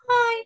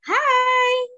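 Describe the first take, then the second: First: It is said in a sad way. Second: It is said in a happy, cheerful way. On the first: "Kalau kita pakai ekspresi sedih" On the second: "kalau kita pakai ekspresi bahagia"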